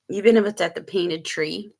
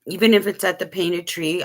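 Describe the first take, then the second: First: Talking around ice in the mouth; words round a mouthful of ice; mouth full. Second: Said in the usual way. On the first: Real, not acted. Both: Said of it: "I'm sorry, I got ice in my mouth".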